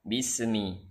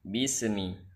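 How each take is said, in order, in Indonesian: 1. Ada bunyi vokal pendek seperti gema setelah bunyi s. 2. Ada bunyi vokal pendek seperti gema setelah bunyi s.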